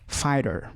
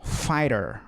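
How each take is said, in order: First: Fighter again "fáiter", t tapped between vowels; silent gh repeat. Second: Fighter said "fáiter", gh silent, t tapped like r; silent gh demo. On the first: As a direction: tap the t between the i and e sounds. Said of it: "como se o T tivesse entre o I e o E". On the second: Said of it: "o G H não tem som". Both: Shown as a demonstration.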